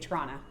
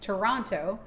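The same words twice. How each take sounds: First: The final T is dropped. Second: The final T is clearly pronounced. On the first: "we get lazy and we don't pronounce the T at the end. We say" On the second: "I have to pronounce it properly"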